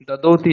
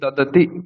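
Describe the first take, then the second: First: The middle vowel is long and drawn out. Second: The middle vowel is short, not drawn out. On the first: The speaker calls it wrong. "দদতি নয়" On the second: The speaker calls it right. "কোনো টান হবে না।"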